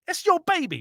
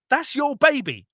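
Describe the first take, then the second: First: Your hit even higher; stronger stress on your. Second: Your pushed up high; stress on your. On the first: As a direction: really hammer the word your. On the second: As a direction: lean on the word your. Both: Real, not acted.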